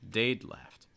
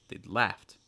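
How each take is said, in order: First: The stress falls on the first word. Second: The stress falls on the second word. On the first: "I'm stressing the contraction" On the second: "notice the stress typically falling on the participle"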